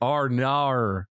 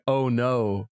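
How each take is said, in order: First: It is said in an exaggerated Australian accent. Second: It is said in a plain American accent.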